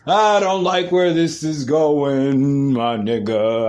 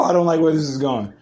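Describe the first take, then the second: First: Long, dragged-out lament; drawn-out dismay. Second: Said in the usual way. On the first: Real, not acted. Podcaster dismayed at where the news is heading, drawn-out lament. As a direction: stretch the words out slowly in dismay.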